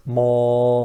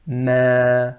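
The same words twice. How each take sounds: First: Ma made thick and raised; the incorrect heavy ma; ma with a full rising sound; heavy wrong ma. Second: Ma said thin and light, falling sound; ma without heaviness. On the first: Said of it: "not ma". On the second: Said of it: "So we say ma". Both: Shown as a demonstration.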